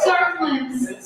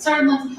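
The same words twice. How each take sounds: First: "Certain" stretched and slow; slow stressed repeat. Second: Said in the usual way. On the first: Shown as a demonstration. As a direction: drag out "Certain limbs" for the joke.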